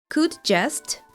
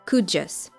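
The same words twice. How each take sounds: First: Each word is said fully, with the final t. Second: The d and j blend; the final t drops.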